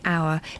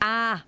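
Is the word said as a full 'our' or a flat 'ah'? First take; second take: our; ah. First: The word is said with a full 'our' vowel. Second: The word is reduced to a flat 'ah' vowel. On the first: "actually I'm saying our" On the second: "my cousins ... they'd say ah"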